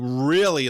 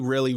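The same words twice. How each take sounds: First: The word is said with strong extra emphasis. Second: The word is said plainly without extra emphasis.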